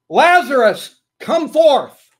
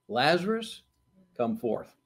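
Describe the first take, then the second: First: It is shouted loudly. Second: It is said at a normal, quiet volume.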